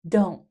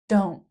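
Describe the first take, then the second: First: The words merge into one short syllable. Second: The words merge into one short syllable.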